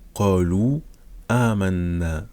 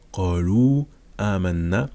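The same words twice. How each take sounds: First: The final vowel of qalu is held briefly. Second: The final vowel of qalu is held briefly.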